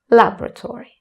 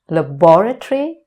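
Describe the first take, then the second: First: The stress is on the first syllable. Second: The stress is on the second syllable. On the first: This is the American pronunciation. "American English, where the stress is put on the first syllable" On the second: This is the British pronunciation. "British English, with the stress on the second syllable"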